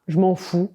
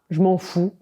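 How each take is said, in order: First: It is said in a flat, indifferent tone. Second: It is said in a flat, indifferent tone.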